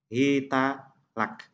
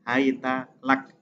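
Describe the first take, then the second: First: The word begins hi- and the t takes a. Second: The word begins hai- and the t takes a.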